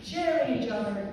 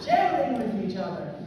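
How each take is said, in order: First: Said in the usual way. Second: Laughing. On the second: Real, not acted. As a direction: still laughing as she corrects. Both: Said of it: "not sharing each other, sharing".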